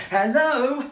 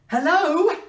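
First: Raised, loud hello into a phone; phone hail. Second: Higher, louder questioning hello; insistent phone hail. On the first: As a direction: call out to see if anyone answers. Calling friend on bad line. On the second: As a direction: call harder down a bad line. Calling louder on bad line. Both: Pretend.

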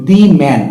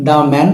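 First: "the man" with the as a long, stressed "dee"; emphatic "thee". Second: "the man" with the as an open "daa"; ordinary "thuh". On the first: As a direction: stress "the" in "the man", rhyming it with see. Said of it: "গুরুত্ব দিয়ে বা emphasis করার জন্য". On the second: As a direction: say "the" in "the man" as "duh", no ee sound. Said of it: "আমরা বলি". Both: Shown as a demonstration.

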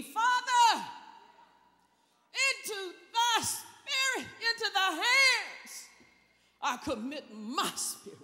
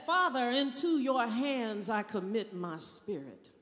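First: Cried out loud. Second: Said in the usual way. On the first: Shown as a demonstration. Preacher acting Jesus crying out from the cross, loud. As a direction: cry it out to heaven. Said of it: "cried out with a loud voice". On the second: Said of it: "Jesus said".

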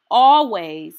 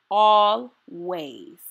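First: First always, loud and strong; emphatic always. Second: Drawn-out always. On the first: Reading to a child, a loud emphatic always. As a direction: declare it firmly to the reader. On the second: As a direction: let the echo linger gently. Repeated affirmation, echo. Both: Acted.

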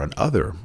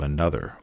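First: "an other" split in two, stress on OTHER; an OTHER as two words. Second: Said in the usual way. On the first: Real, not acted. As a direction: separate "an" from "other" and lean on "other". Rewords one word as two.

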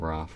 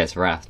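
First: "wrath" with the vowel of "father"; long open AH in "wrath", said softly. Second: "wrath" with the vowel of "cat"; short flat A in "wrath", as "rath". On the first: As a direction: say "wrath" as "rahth". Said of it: "it's wrath, not wrath". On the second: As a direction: say "wrath" to rhyme with "math". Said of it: "not wrath". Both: Shown as a demonstration.

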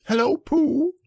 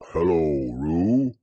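First: Much higher, squeaky little Roo; squeak. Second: Low, calm Pooh reply; plain Pooh. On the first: Acted. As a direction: squeak it out like an excited baby kangaroo. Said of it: "he squeaked". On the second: A narrator's reading. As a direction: answer simply and steadily. Pooh answers Roo.

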